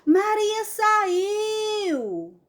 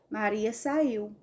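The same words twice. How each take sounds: First: It is said loudly, like a shout. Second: It is said calmly at normal loudness. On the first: It is called out so someone far away hears. "porque ela está enfatizando" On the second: It is a plain statement of fact. "Maria saiu, ponto final"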